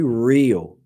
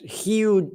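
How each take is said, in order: First: The R is pronounced the English way. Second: The R is pronounced the Portuguese way. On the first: "But when you speak English, letter R is here. So you have to say" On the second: "That's the pronunciation in Brazilian Portuguese"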